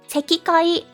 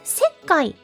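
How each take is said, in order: First: The 'ki' syllable is pronounced in full. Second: The 'ki' becomes a doubled k sound. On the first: The speaker calls it wrong. "Sekikai is incorrect" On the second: The speaker calls it right. "But sekkai is correct"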